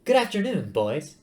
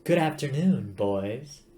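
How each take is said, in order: First: Much higher, sing-song nanny greeting; matriarchal computer voice. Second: Matriarchal computer. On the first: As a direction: coo it like a bossy mother hen. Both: Acted. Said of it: "I should do the voice differently".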